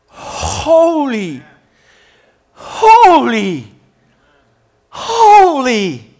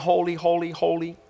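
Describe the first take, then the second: First: The words are said with overwhelmed, excited awe. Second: The words are said in a flat, mechanical drone. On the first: The speakers are overwhelmed by what they see. The speaker calls it right. "these guys are freaking out at the majestic presence of God. And they're like" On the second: The words are repeated without feeling. The speaker calls it wrong. "they're not on broken automatic pilot going"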